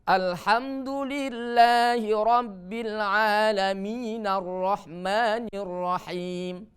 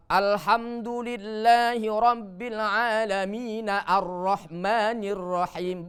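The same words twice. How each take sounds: First: Slow chant, "Alamin" flowing into "Ar-Rahmanir" as "nar-rahmanir"; correct joined demo. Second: Slow chant with "Ar-Rahmanir" started afresh on "ar" after "Alamin"; wrong hamzah demo. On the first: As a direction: recite in one breath, hamzah of "Ar-Rahmanir" silent. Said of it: "Bukan, ya. Tapi". (contoh benar: "Alamin" disambung ke "Ar-Rahmanir") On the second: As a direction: recite slowly, sound the hamzah of "Ar-Rahmanir". (contoh salah: hamzah "Ar-Rahmanir" dibunyikan) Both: Shown as a demonstration.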